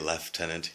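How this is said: It is said in the Canadian way. "but we say lieutenant here"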